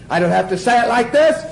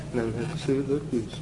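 First: Projected out to the whole room; raised voice. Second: Low, very soft and quick; hushed voice. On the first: Preacher showing the class a big delivery, raised voice. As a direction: say it out big, pitch lifting at the end. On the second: Preacher showing the class a tiny delivery, hushed and quick. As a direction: drop it to a small hushed murmur. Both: Shown as a demonstration.

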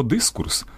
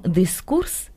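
First: «дискурс» з наголосом на «и»; виділи «дис» у слові «дискурс»; наголос на першому складі. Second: «дискурс» з наголосом на другому складі, на «у»; виділи «курс» у слові «дискурс»; давній наголос. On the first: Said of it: "з незмінним наголосом на першому складі". (сучасне «дискурс» з ударним першим складом) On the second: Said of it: "і з новим наголосом". (давня вимова «дискурс» з ударним останнім складом) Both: Shown as a demonstration.

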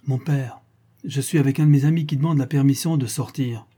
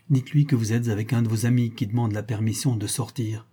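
First: Raised, projected announcement; announcing aloud. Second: Said in the usual way. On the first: A narrator's reading. Son relaying the excuse to his father, announcing aloud. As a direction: pass the message through the door, a little louder.

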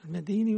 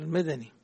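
First: "المديني" with a long ee after the dal; long-i reading. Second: "المدني" with short a after the dal; short-a reading. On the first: Teacher checks the student's reading, "المديني" with long ee. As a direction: say "المديني" as madeeni. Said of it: "المديني ولا المدني". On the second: Teacher offers his copy's reading, "المدني" with short a. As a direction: say "المدني" as madani, no long vowel. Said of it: "أنا عندي المدني". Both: Shown as a demonstration.

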